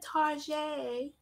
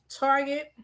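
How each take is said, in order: First: Target is said in an imitated, different pronunciation. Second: Target is said in the speaker's own pronunciation. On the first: This is how other people say it. "you know how the other folks say it" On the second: This is how her own community says it. "That's how we say it"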